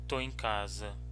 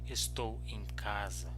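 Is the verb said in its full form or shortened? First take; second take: shortened; full. First: The verb is shortened to one syllable, tô. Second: The verb is said in full as estou. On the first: This is the casual everyday spoken form. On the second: This is the standard form.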